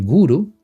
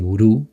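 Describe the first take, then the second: First: The stress is on the first syllable. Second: The stress is on the last syllable. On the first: The speaker calls it right. "se dice guru" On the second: The speaker calls it wrong. "que no se dice gurú"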